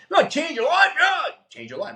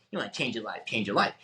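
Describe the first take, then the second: First: High, loud sarcastic parody of the speaker; mocking hype shout. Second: Low, soft sarcastic repeat to himself; mocking mutter. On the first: Driving around parodying the speaker, high mock shout. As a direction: ham up the slogan to ridicule it. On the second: Driving around mocking the speaker, low soft mutter. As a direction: grumble the slogan under your breath. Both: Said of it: "I'm driving around Bellevue going".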